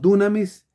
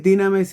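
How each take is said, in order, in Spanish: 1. Usa la pronunciación del griego antiguo. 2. Usa la pronunciación del griego moderno. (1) "es la pronunciación antigua del griego" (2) "la pronunciación actual, más moderna del griego"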